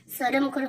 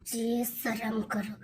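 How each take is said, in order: First: "शर्म करो" at normal level, sharp and direct; firmer scold. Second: Low, soft, slow "जी शर्म करो" under the breath; wife hushing her husband's crude talk, low and slow; hushed scold. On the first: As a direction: say it straight to his face. Wife scolds husband's crude remark. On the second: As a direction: shame him quietly, drawn out. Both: Acted.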